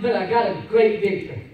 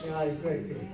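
First: "great victory" spoken firmly and loud; declared victory. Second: "I got a great victory" dropped soft; quiet echo. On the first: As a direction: announce it proudly. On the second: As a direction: let the echo fall away quietly. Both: Real, not acted. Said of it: "repeated line".

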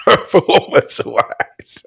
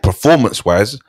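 First: Drawn out, high and breaking into laughter; helpless laugh on the words; laughing echo. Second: Said in the usual way. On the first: Real, not acted. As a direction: echo it slowly through real laughter.

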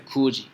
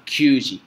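First: Q G said "ku-ji", no y-glide; correct reading. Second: Q G said "kyuu-ji", with a y-glide; wrong reading. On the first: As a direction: say Q G as a plain "ku-ji". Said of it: "tiene que ser Q G". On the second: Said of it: "no puede usar Q G". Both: Shown as a demonstration.

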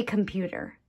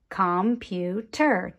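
First: Said in the usual way. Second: "computer" tapped out in three separate beats; split into syllables. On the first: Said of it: "So let's say computer". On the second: Shown as a demonstration. Teacher showing children the sound groups, "computer" syllable by syllable. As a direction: say "computer" as com, pu, ter, evenly spaced. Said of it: "tap out the different sound groups in a rhythm".

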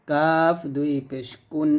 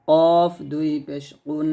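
First: "কাফ" and "কুন" with k made forward of q; kaf ك sound. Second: "কফ" and "কুন" with q made far back; qaf ق sound. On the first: Teacher contrasting two letters, light k in "কাফ". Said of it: "এটা কাফ". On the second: Teacher contrasting two letters, back q in "কফ". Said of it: "এটা হবে কফ". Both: Shown as a demonstration.

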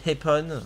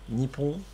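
First: "Heppon" said with an H instead of the N, eh-PON; wrong pronunciation. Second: "Nippon" said cleanly, nee-PON, with the double P held; correct pronunciation. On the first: Showing teammate the sloppy mispronunciation, "Heppon". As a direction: mangle it on purpose into "Heppon". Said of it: "tu dis Heppon". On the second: Explaining Japanese to teammate, correct "Nippon". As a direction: say "Nippon" the right way, plain and clear. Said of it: "Au lieu de dire Nippon". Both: Shown as a demonstration.

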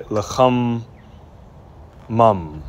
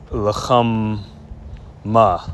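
First: 'lacham mum' split, ending vowel then m; correct masculine form. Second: 'lacham ma' split, ending on open ah; wrong masculine form. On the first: Teacher recaps masculine form, split 'lacham mum' ending on m. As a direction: say 'lacham', pause, 'mum' closing on m. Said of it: "or a masculine". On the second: Teacher shows what not to say, 'lacham ma' open-ended. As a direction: say 'lacham', pause, then bare 'ma'. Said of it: "You're not gonna say". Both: Shown as a demonstration.

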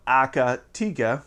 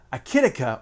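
First: Akatika with "ah-ka" then a drawn-out "tee-ka"; slow Akatika, "tee" in the third syllable; maker's pronunciation. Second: Akitika with a short i in the second syllable; host's own pronunciation. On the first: Host quoting how the makers say it, maker's pronunciation. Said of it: "as they like to call it". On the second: Host introducing the preamp brand, his own pronunciation. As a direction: say Akitika with "kit" in the middle. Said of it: "or as they like to call it". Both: Shown as a demonstration.

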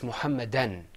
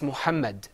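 First: "Muhammadan" with an added an at the end; "Muhammadan" in four syllables, final n; with tanween. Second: Said in the usual way. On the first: Shown as a demonstration. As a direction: say "Muhammadan", closing on n. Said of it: "With tanween". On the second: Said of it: "Without tanween".

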